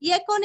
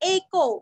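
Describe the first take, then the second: First: The word begins with a 'y' glide. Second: The word begins with a plain 'e' vowel. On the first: The speaker calls it wrong. "ये को नहीं करना" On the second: The speaker calls it right. "एकादशी का ए"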